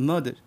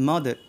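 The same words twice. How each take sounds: Both takes have the same delivery.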